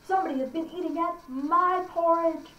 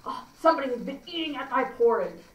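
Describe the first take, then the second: First: Higher-pitched middle bear complaint; aggrieved middle-sized bear, pitched up. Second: Lightly voiced huge bear, aggrieved; a hint of a big bear finding his food touched. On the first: Acted. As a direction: lean on "my" as an indignant middle bear. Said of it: "the middle bear says". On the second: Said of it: "our huge bear says".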